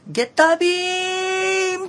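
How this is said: It is said with a flat, level pitch. The beam travels straight and far. The speaker calls it right. "ずっとまっすぐ行くのは、いわゆるビーム、あの平板に"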